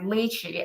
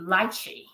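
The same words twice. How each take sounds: First: It is said with an American pronunciation. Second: It is said with a British pronunciation. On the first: "we speak in American English. We we state it, pronounce it like lychee" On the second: "if we uh, go with the U K one, would be the lychee"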